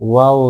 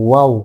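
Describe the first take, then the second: No difference in how they are said.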